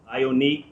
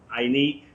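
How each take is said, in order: Both takes have the same delivery.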